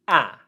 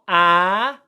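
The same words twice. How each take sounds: First: The vowel is cut short. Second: The vowel is held long. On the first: The speaker calls it right. "it's a short English vowel sound" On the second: The speaker calls it wrong. "Not a long one, it's not ah"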